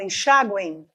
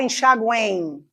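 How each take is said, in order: First: Enxaguem said with the u gliding and ending in a nasal i, "en-xa-guẽi"; correct pronunciation. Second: Enxaguem said with a full vowel u, as a separate syllable; wrong pronunciation. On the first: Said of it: "eu falo enxaguem". (pronúncia correta: enxaguem terminando em i nasal) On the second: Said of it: "eu não falo enxaguem". (pronúncia errada: enxaguem com u separado) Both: Shown as a demonstration.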